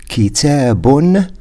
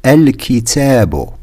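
First: كتاب ending in a clear un sound; كتاب with nunation, set against al-kitaabu; with final N. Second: الكتاب ending on a bare vowel, no N; الكتاب without nunation, ending in u; no final N. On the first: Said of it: "I pronounce an N at the end". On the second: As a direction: say الكتاب as al-kitaabu with no N at the end. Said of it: "When I say the book, then there is no N". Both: Shown as a demonstration.

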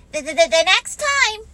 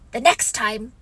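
First: High, loud stuttering Piglet voice; anxious little creature tripping on THE; nervous stammer. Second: Said in the usual way. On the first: Acted. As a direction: stammer the message out urgently. Piglet stammers the message to Pooh.

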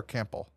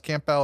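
First: "Campbell" with the ending swallowed to "bul"; reduced-vowel pronunciation. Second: "Campbell" with a clear "bell" ending; full-vowel pronunciation. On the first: Host weighing two ways to say a surname, "Campbell" as CAM-bul. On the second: Host weighing two ways to say a surname, "Campbell" as CAM-bell. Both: Shown as a demonstration. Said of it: "I never know if it's pronounced".

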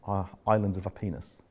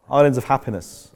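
First: Said in the usual way. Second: Louder, laughing through the phrase; amused repeat. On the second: Real, not acted. Repeating the author's phrase to his team, amused and laughing. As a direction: chuckle as you say it again.

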